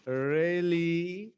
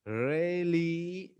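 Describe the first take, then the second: Both takes have the same delivery.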